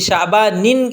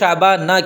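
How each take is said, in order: First: The word ends with the sound -in. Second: The word ends with a plain -a. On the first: The speaker calls it wrong. "ये शाबानिन इसको कहना गलत है" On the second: The speaker calls it right. "इस वजह से इसको शाबाना कहते हैं"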